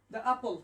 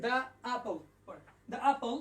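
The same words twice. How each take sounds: First: "the apple" said as "da apple", the vowel drawn out; pronouncing the apple. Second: "the apple" repeated as "da apple", even and clear; repeating the apple. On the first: Teacher demonstrating to online students, long "da" before apple. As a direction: stretch the "the" into a long "da". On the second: Teacher repeating the model phrase for students, clear "da". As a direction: say "the apple" again with the same "da" sound. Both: Shown as a demonstration. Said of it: "এখানে লিখলাম দা".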